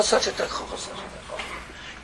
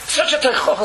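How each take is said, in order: First: Repeat, dropping to a whisper; fading to whisper. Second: Said in the usual way. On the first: Acted. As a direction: let it fade to breath.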